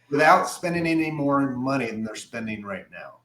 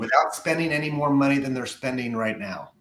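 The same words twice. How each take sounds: First: It is said slowly and deliberately. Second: It is said at a normal pace.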